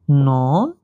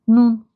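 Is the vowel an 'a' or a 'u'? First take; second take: a; u. First: The vowel is a long 'a' sound. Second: The vowel is an 'u' sound. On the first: "عادیش نان" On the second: "تلفظ میشود به شکلی نون"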